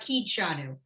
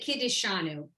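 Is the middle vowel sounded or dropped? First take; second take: dropped; sounded. First: The middle vowel is dropped, run together. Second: The middle vowel is sounded fully. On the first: This is how it comes out in quick speech. "when you say it quickly, ... it comes out Kidshanu" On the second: This is the official form. "you're supposed to say Kiddishanu"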